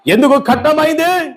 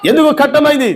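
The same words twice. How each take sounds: First: Said in the usual way. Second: ఎందుకు shouted out with force; shouted question. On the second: Acted. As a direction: hurl the question ఎందుకు at the congregation. Preacher repeats question, then shouts. (ఎందుకు అని గట్టిగా అరిచి అడగడం)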